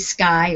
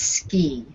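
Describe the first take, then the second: First: The vowel sounds like 'eye'. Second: The vowel sounds like 'ee'. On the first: The speaker calls it wrong. "You'd think it would be sky" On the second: The speaker calls it right. "but it's ski"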